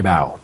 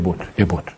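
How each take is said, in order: First: About said as "ebaut", with a clear ow; تلفظ درست about. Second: About repeated as "ebot", plain o; تلفظ غلط about. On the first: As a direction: glide from ah to oo in about. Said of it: "گفتم about درسته". (تلفظ about به شکل «اِباوت») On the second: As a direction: say about twice as "ebot", without the ow glide. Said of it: "تا بعدم گفتم about درسته". (تلفظ about به شکل «اِبوت») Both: Retold or imitated.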